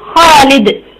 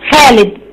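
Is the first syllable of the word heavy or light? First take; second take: heavy; light. First: The first syllable is heavy, with a full back vowel. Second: The first syllable is light, with a thinner vowel. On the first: This is the classical form. "الفصيحة تبقى ايه خالد، دي فصيحة خا" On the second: This is the everyday colloquial form. "احنا في العامية بتاعتنا بنقول ايه خالد"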